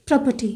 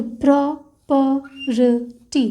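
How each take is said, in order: First: Said in the usual way. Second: property stretched very slowly while tracing; drawn-out word. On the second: Shown as a demonstration. Teacher tracing the stroke for students, very slow. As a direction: drag out property syllable by syllable. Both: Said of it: "तो stroke create होगा".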